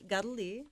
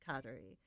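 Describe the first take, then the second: First: The name is said with Mohawk pronunciation. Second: The name is said with English pronunciation. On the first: "So we say Gadali" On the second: "sort of the closest English version is Kadari"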